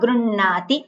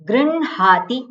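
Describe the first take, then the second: First: No h sound follows the n. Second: An h sound follows the n.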